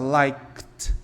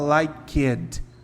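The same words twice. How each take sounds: First: It is one syllable ending in k and t. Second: An extra vowel adds a second syllable. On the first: The speaker calls it right. "Então você vai falar assim, ó" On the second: The speaker calls it wrong. "Você não vai falar liked, Não é para colocar uma vogal ali"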